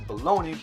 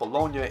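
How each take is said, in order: First: The word's ending does not sound like lasagna. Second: The word's ending sounds like the end of lasagna. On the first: This is the later English form of the word. "into bologna" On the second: This is the original name of the city. "from Bologna"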